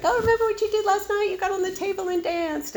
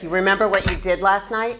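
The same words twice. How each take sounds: First: Far higher, fast giggly friend voice; cute gossip. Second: Lightly voiced, weighted question; ominous question. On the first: Retold or imitated. Friend teasing about cute drunken antics, giggly high voice. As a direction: chirp it like fun gossip. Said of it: "blackouts were a little bit cuter". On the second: Friend asking after a dark blackout, a touch ominous. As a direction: ask it like bad news. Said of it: "And now it's like".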